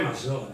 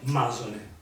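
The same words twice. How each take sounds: First: The stress is on the second syllable. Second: The stress is on the first syllable. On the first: The speaker calls it right. "è piana, quindi dovevi dire Masone" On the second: The speaker calls it wrong. "non Masone"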